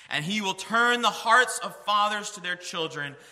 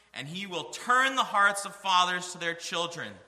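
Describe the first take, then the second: No difference in how they are said.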